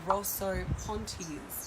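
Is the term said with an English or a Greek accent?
English. It is said with an English accent. "I'm saying it in an English way"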